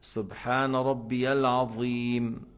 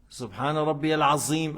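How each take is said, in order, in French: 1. La consonne du dernier mot est un th. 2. La consonne du dernier mot est un z. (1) "En prenant la langue entre les dents en haut" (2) "c'est pas Al-Azim. C'est pas le Z là"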